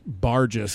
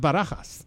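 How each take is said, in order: First: The name sounds like the English word barges. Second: The name is said with Spanish sounds. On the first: The speaker calls it wrong. "I thought my last name was pronounced Barges" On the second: The speaker calls it right. "because that's a Spanish name"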